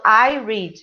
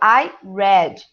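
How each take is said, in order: First: The verb sounds like the word 'reed'. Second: The verb sounds like the color 'red'. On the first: The action happens in the present. "no presente eu falo" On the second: The action happened in the past. "No passado eu falo I read, igual a cor"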